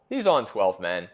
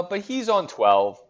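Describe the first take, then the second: First: Said in the usual way. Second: Slow, higher, leaning on twelve; drawn-out emphasis on "on twelve"; emphatic on twelve. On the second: Real, not acted. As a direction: stretch it out, higher, to stress the point. Stresses rival's high team value.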